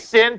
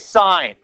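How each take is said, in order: First: The word rhymes with 'fin'. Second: The word rhymes with 'fine'. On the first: The speaker calls it wrong. "please don't say sin" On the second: The speaker calls it right. "please say sine"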